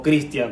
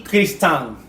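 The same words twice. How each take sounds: First: "Christian" as the familiar "Kristian"; everyday "Christian", ending in "tian"; familiar name pronunciation. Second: Slow "Christian" said as "Kris-TAN", stressed at the end; "Christian" with no "i" glide, ending in "tán"; attempted Icelandic name. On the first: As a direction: say "Christian" as "KRIS-tian", with the i glide. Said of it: "la forma en la que ellos pronuncian Christian". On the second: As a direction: draw out "Christian" as two syllables, "kris-tán". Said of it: "es Christian con una J al final". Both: Shown as a demonstration.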